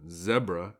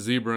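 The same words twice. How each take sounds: First: Zebra is said with a British pronunciation. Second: Zebra is said with a non-British pronunciation.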